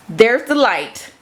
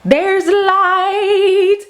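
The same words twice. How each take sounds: First: Said in the usual way. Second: Sung, much higher, slow and drawn out, a bit louder; sung, stretched-out high showman call; high sung reveal. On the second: Shown as a demonstration. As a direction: sing out the light like a grand reveal.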